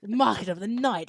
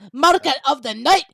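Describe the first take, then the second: First: It is said in the speaker's usual accent. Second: It is said in a Glaswegian accent.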